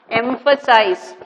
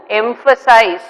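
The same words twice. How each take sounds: First: "Emphasize." said slowly and a bit softer, each syllable clear; slow teaching model. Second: Said in the usual way. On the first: Shown as a demonstration. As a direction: spell out "Emphasize." slowly for the class to learn. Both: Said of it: "this word all of you have to learn".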